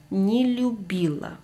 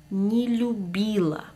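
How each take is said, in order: The two takes are said the same way.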